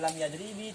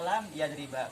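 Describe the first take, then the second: First: The second word ends with a final i vowel. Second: The second word ends with a final a vowel. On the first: "tidak dibaca" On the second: "tidak boleh dibaca"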